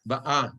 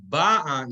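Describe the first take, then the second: First: Ba'a stressed on the final syllable; stress on end of ba'a. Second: Ba'a stressed on the first syllable; stress on start of ba'a. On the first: Teacher quoting Rachel is coming, ba'a stressed on last syllable. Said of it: "She is coming". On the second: Teacher quoting a later verse, ba'a stressed on first syllable. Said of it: "the accent is different". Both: Shown as a demonstration.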